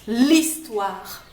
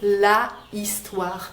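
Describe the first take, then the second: First: The article's vowel is dropped and linked. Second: The article's vowel is fully pronounced. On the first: The speaker calls it right. "l'histoire, c'est beaucoup plus joli" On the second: The speaker calls it wrong. "c'est beaucoup plus joli que de dire la histoire"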